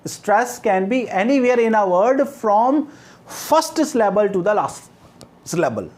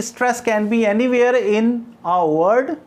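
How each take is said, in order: First: Very slow, each word spelled out for notes; slow dictation. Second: Said in the usual way. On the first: Shown as a demonstration. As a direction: dictate it word by word so they can write. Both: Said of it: "I repeat".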